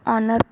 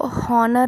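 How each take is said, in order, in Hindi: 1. इस शब्द की शुरुआत स्वर से होती है, इसमें एच नहीं है। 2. इस शब्द की शुरुआत में बोली जाने वाली एच की आवाज़ है। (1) "इसको ऑनर पढ़ते हैं" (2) "हम इसको हॉनर नहीं पढ़ते हैं"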